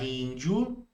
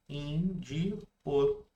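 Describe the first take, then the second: First: The final vowels are joined in one syllable. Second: The final vowels are split into two syllables.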